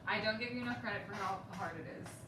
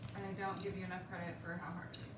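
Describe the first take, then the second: First: It is said louder than before. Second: It is said at a normal, softer volume.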